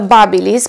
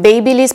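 First: The name is said the brand's own way. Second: The name is said as it is spelled. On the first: The speaker calls it right. "să știți că se pronunță Babyliss" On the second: The speaker calls it wrong. "inițial și eu pronunțam Babyliss pentru că așa teoretic este normal să pronunț"

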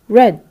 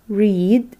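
First: The vowel is a short 'eh' sound. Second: The vowel is a long 'ee' sound. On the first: It is the past tense. "red in the past" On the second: It is the present tense. "read in the present"

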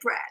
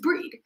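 First: The vowel is a short e, as in bed. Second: The vowel is a long ee, as in bead. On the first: "when I first read it, I said Bread" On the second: "my dad said, no, it's Breed"

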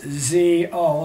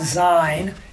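First: The first syllable sounds like the start of 'zebra'. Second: The first syllable does not sound like 'zebra'. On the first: The speaker calls it right. "it's actually pronounced Z-O, like zebra" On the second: The speaker calls it wrong. "it's not Zion"

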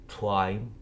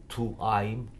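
The two takes are said the same way.

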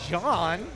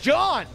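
First: The name is said flatly, without excitement. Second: The name is said loudly with excited gusto. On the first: The speaker calls it wrong. "That's not just John" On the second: The speaker calls it right. "You gotta say it with some gusto"

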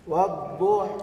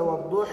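First: The final vowel is tilted partway toward i. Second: The final vowel becomes a full i sound. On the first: The speaker calls it right. "صارت تقريبا للفتحة من الكسرة" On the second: The speaker calls it wrong. "هذا قلب خالص"

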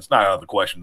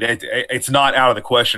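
First: It is spoken in a quiet hushed voice. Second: It is spoken in a normal full voice.

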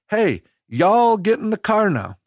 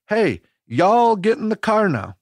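First: It is said in a Tennessee accent. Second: The same.

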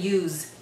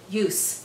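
First: The word ends with a soft z sound. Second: The word ends with a sharp s sound. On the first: The word is a verb. The speaker calls it wrong. "don't say use. Use is a verb" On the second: The word is a noun. The speaker calls it right. "we have to pronounce it use with a strong S"

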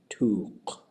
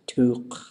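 First: The word is said on a low tone. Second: The word is said on a high tone. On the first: It names a needlefish. "low tone" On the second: It names a butt. "high tone"

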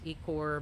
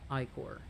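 First: The first syllable does not sound like 'eye'. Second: The first syllable sounds like 'eye'. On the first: The speaker calls it wrong. "those who pronounce this as Echor" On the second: The speaker calls it right. "this is actually pronounced as Ichor"

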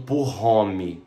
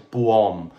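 First: It is pronounced with English-style sounds. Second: It is pronounced with French sounds. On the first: The speaker calls it wrong. "Eu vejo gente falando Pour-Homme. Não é Pour-Homme" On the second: The speaker calls it right. "Francês, homme"

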